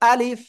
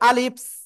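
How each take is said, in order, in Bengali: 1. শব্দটি কোনো অতিরিক্ত হিস ছাড়াই পরিষ্কারভাবে শেষ হয়। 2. শব্দটির শেষে একটি অতিরিক্ত হিসহিসে s ধ্বনি যুক্ত হয়। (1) "আমি আবারও দেখাচ্ছি।" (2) "অনেকেই উচ্চারণ করতেছেন এরকম, ... এরকম বলা যাবে না।"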